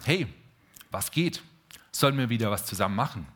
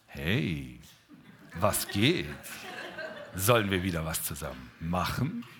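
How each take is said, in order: First: It is said in a casual, friendly tone. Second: It is said in a flirtatious, seductive tone. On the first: Two friends share an interest. "Während man von Philia sprechen könnte, zwei Menschen, die sich sehen und sagen" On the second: The speaker feels romantic attraction. "Würde Eros sagen"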